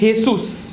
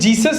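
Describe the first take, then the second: First: It begins with an H sound. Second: It begins with a J sound. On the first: "but in Mexican this is Jesus" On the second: "This is Jesus in English"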